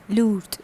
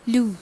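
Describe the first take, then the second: First: "lourd" as "loort", closing consonant sounded; feminine French form. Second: "Lourd" as "loo", silent final D; masculine French form. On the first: Teacher shows the feminine with extra E, final consonant pronounced. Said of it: "and it becomes lourd". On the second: Teacher models the word for heavy, masculine form with silent ending. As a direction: end "Lourd" on the vowel. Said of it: "an extra E is added". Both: Shown as a demonstration.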